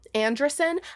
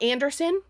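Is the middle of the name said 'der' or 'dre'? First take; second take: dre; der. First: The middle sounds like 'dre', as in Andresen. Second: The middle sounds like 'der', as in Anderson. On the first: The speaker calls it right. "that's how he pronounces his name" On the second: The speaker calls it wrong. "Not Anderson"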